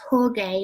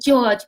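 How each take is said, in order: First: The name is said with Spanish sounds. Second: The name is said with English sounds. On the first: The speaker calls it right. "I think it's pronounced Jorge" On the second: The speaker calls it wrong. "I say George"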